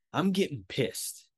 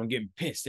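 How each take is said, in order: First: I'm getting pissed, drawn out slowly with weight; slow emphatic annoyance. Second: Said in the usual way. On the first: Real, not acted. Telling listeners about his stolen wallet, slow emphatic annoyance. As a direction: lean into it, slow and heavy. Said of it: "Every time I think about that three hundred dollars". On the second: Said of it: "every time I think about it".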